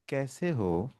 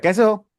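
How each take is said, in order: First: The greeting sounds pleasant and put-on. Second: The greeting sounds irritated and restless.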